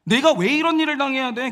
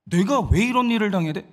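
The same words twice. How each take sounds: First: Acted hurt protest, higher pitch; aggrieved outburst. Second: Said in the usual way. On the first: Wronged Sarai asking why she must suffer, aggrieved outburst. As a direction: let the wounded indignation burst out. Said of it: "서러움이 폭발을 하는 거예요". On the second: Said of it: "왜 이런 일을 당해야 되는지를 모르는 거야".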